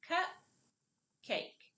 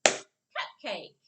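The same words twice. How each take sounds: First: "cup" and "cake" as separate syllables with a clear pause; syllables apart. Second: "Cupcake" as one joined word, louder; blended together. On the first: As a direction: break the word into two isolated beats. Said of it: "put the word back together". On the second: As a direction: clap the syllables into one loud word. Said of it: "Now let's clap it together". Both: Shown as a demonstration.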